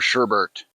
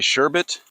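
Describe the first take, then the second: First: The second syllable has an r sound. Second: The second syllable has no r sound. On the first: "I used to say sherbert" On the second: "Do you say sherbet or sherbert?"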